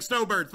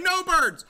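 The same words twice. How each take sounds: First: Said in the usual way. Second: "no birds" high and loud, starting on a clear N; clarified "no birds". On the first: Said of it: "Everyone thinks I'm saying snowbirds". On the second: Shown as a demonstration. Player correcting what listeners hear, "no birds" high and emphatic with "no" standing apart. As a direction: call out "no birds" as two words, with no S before "no". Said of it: "but I'm saying no birds".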